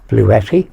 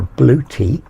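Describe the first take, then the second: First: The name ends with a short 'etty' sound. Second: The name ends with a long 'tea' sound. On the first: The speaker calls it wrong. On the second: The speaker calls it right.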